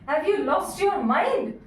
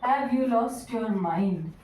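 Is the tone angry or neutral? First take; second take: angry; neutral. First: It is said in a fit of rage. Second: It is asked as a calm, plain question.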